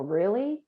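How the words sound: It sounds doubtful and disbelieving. The listener doubts what was said. "which is kind of a, uh, are you serious?"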